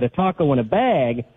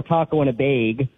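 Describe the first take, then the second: First: Said in the usual way. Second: "bag" said with a long ay, like "bayg"; regional vowel in "bag". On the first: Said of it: "that's right". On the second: Shown as a demonstration. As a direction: stretch the vowel of "bag" into "beig". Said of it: "that's right. Or taco in a bag".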